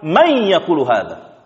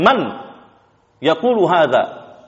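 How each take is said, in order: First: The n merges into a doubled y sound. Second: The n is pronounced clearly before the y. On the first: The speaker calls it right. "mereka mengatakan may yaqulu hadza" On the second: The speaker calls it wrong. "mengizharkan nunnya"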